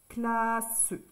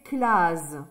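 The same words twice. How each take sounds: First: The middle consonant is a hissing s sound. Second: The middle consonant is a buzzing z sound. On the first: "Double S" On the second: "Si je mets un seul S, ça fait classe"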